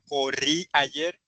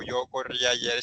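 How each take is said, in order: First: "Corrí ayer" slowly, rising at the end as a question; teacher demonstrating "Corrí ayer" as a question; question intonation. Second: Said in the usual way. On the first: Shown as a demonstration. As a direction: ask "Corrí ayer" with a slow upward lift. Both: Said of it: "sino en pregunta".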